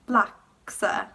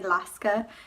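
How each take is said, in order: First: The k sound comes before the s. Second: The s sound comes before the k. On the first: The speaker calls it right. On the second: The speaker calls it wrong.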